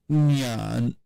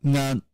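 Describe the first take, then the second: First: NYAN with a y-glide, drawn out; nyan, lengthened palatal syllable; Mandarin-form demo. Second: NGAN with no y-glide after the nasal; ngan, glide-free onset; original-form demo. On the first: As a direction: cite "nyan" long, with y before the vowel. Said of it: "it would become something like". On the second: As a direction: cite "ngan" as a lone syllable, nasal straight into the vowel. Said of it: "If we have an original just". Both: Shown as a demonstration.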